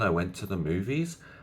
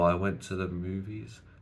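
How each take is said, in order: First: The voice rises at the end like a question. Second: The voice gets quieter and trails off.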